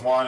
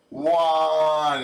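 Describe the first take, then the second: First: Mock yell of the number one; half-hearted retold yell; yelled count. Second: Said in the usual way. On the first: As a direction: call out one like an order. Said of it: "And he yells". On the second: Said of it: "He said".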